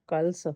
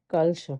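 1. ਸ਼ਬਦ ਦਾ ਅੰਤ ਸਾਦੀ 's' ਧੁਨੀ ਨਾਲ ਹੁੰਦਾ ਹੈ। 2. ਸ਼ਬਦ ਦਾ ਅੰਤ 'sh' ਧੁਨੀ ਨਾਲ ਹੁੰਦਾ ਹੈ। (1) "ਜੇ ਆਪਾਂ ਸੱਸੇ ਪੈਰ ਬਿੰਦੀ ਨਾ ਲਾਈ ਤਾਂ ਉਹ ਬਣ ਜਾਊਗਾ ਕਲਸ" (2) "ਪਰ ਆਪਾਂ ਕੀ ਲਿਖਣਾ ਹੈ?"

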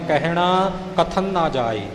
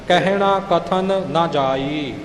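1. ਇਹ ਕਾਹਲੀ ਨਾਲ ਬੋਲਿਆ ਜਾਂਦਾ ਹੈ, ਅਤੇ ਇੱਕ n ਧੁਨੀ ਅੱਧੀ ਗੁੰਮ ਹो ਜਾਂਦੀ ਹੈ। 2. 'Kathan' ਪੂਰਾ ਬੋਲਿਆ ਜਾਂਦਾ ਹੈ, ਫਿਰ ਵੱਖਰਾ 'na'। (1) "ਆਮ ਤੌਰ 'ਤੇ ਆਪਾਂ ਕਾਹਲੀ ਵਿੱਚ ਪੜ੍ਹ ਜਾਂਦੇ ਹਾਂ" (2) "ਪਹਿਲਾਂ ਕਥਨ ਪੂਰਾ ਬੋਲ ਕੇ ਫਿਰ ਅੱਗੇ ਨਾ ਬੋਲਣਾ"

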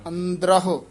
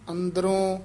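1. ਅੰਤ ਵਿੱਚ ਸੁਣਨਯੋਗ ਹ ਦੀ ਧੁਨੀ ਹੈ। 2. ਅੰਤ ਵਿੱਚ ਸਾਦਾ ਓ ਹੈ, ਕੋਈ ਹ ਨਹੀਂ। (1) "ਹਾਹਾ ਹੈ" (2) "ਅੰਦਰੋਂ ਹੂੜਾ ਨਹੀਂ ਲਾ ਦੇਣਾ"

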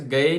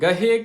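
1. ਸ਼ਬਦ ਵਿੱਚ h ਦੀ ਆਵਾਜ਼ ਨਹੀਂ ਹੈ। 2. ਸ਼ਬਦ ਵਿੱਚ ਸਾਫ਼ h ਦੀ ਆਵਾਜ਼ ਹੈ।

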